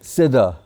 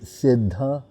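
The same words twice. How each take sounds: First: The word is pronounced carelessly with altered sounds. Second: The word is pronounced carefully with its full sounds. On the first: Something boiled or cooked. The speaker calls it wrong. "they don't say the word properly" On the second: Someone who has reached the perfected plane. The speaker calls it right. "it's S I D D H A"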